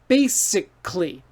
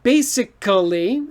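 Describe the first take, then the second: First: The middle vowel is dropped, giving fewer syllables. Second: Every syllable is said, including the middle vowel. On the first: The speaker calls it right. "so we say basically" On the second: The speaker calls it wrong. "basically is hard to say"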